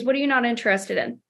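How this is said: The tone is soft, friendly and curious. The asker genuinely wants to understand. The speaker calls it right. "it's very important that you watch your tone here. But okay, Jason, no worries. I'm just curious"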